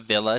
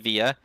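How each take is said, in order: First: The word is said with a clear L sound. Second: The word is said without any L sound. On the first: The speaker calls it wrong. "That's the way everybody says it" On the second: The speaker calls it right. "The proper way to say it is via"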